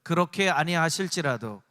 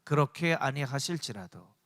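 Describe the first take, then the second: First: It is said in a louder voice. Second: It is said at normal volume.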